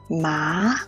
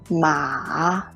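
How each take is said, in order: First: The pitch rises from mid to high. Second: The pitch starts low and then rises. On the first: "The second tongue is a rising tongue" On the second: "The third tongue is a low rising tongue"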